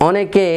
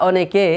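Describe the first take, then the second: The two takes are said the same way.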